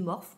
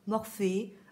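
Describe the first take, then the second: First: The name ends without an 'ay' vowel. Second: The name ends in a clear 'ay' vowel. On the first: This is how the speaker says it. "je dis Morphe parce qu'il n'y a pas, euh, il y a pas d'accent" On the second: This is how some other people say it. "certains disent Morphée"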